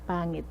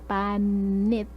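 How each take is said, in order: First: The middle consonant is a nasal ng sound. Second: The middle consonant is a plain n sound. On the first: The speaker calls it right. "You say pa ngit ngit ngit pangit" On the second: The speaker calls it wrong. "So you don't say panit"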